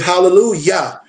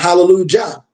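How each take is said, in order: First: The final syllable starts with a Y sound. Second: The final syllable starts with a J sound. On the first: The speaker calls it right. "it's praise Yah" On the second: The speaker calls it wrong. "they say Jah"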